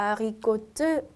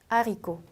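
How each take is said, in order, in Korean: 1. 끝 t 소리는 발음해요. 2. 단어는 모음으로 끝나요. t는 없어요. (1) "절대 안 되고" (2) "끝에 있는 자음은 발음을 하지 않습니다"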